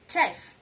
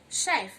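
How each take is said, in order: First: The word begins with a ch sound. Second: The word begins with a sh sound. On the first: The speaker calls it wrong. "and not chef" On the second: The speaker calls it right. "letter C H makes the sound sh. You go chef"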